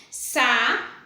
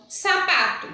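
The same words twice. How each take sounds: First: "sa-pa-to" said slowly, each syllable spoken separately; syllables split apart. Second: Said in the usual way. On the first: Shown as a demonstration. Teacher to pupils, spelling out "sa-pa-to" syllable by syllable. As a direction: break "sa-pa-to" into three separate beats. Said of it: "trissílaba também".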